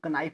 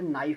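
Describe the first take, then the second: First: The word starts with a k sound before n. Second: The word starts with an n sound, no k. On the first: The speaker calls it wrong. "जो गलत है" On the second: The speaker calls it right. "के silent होता है"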